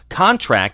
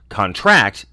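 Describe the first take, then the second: First: The stress is on the first syllable. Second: The stress is on the last syllable. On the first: It is a noun. "the noun form stresses the first syllable ... contract is a noun" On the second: It is a verb. "verb stresses the last ... contract is a verb"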